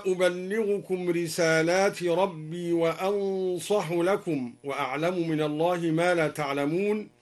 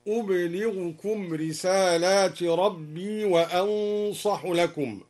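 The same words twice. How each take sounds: First: Said in the usual way. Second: أبلغكم as "ublighukum" in a slow recitation; silent ba, light lam. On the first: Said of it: "قوله تعالى". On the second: Shown as a demonstration. Teacher recites al-Duri's reading, أبلغكم as "ublighukum". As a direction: recite أبلغكم with vowelless b and single l. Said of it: "بإسكان الباء وتخفيف اللام هكذا".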